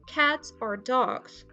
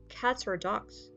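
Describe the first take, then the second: First: The words are said separately. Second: The final consonant links into the next vowel.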